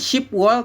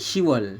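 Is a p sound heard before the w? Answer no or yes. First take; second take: yes; no. First: A p sound is heard before the w. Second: No p sound is heard before the w. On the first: The speaker calls it wrong. "Bukan Shipwal" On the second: The speaker calls it right. "tapi Shiwal"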